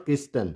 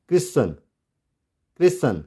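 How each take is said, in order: First: "Christian" as KRIS-TUN, T pronounced; wrong sounded T. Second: "Christian" as KRISS-un, no T; silent T. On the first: ("Christian" को क्रिस्टन, टी बोलकर) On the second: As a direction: drop the T sound in "Christian". ("Christian" को क्रिसन, टी silent) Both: Shown as a demonstration. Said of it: "not Christian".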